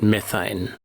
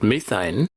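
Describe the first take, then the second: First: It is said with an American pronunciation. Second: It is said with an Australian pronunciation. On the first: "Americans pronounce it methane" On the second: "Aussies pronounce it methane"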